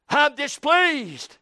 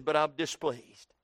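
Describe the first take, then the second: First: Slow, drawn-out, higher pouting complaint; stubborn protest. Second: Said in the usual way. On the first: Acted. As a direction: drag it out like a sulking child. Jonah protesting to God.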